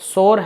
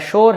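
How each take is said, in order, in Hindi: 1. यह एक अक्षर में बोला जाता है, 'sor'। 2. यह एक अक्षर में बोला जाता है, जो 'sh' से शुरू होता है। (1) "ना तो सोर है" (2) "ना ही आपका शोर"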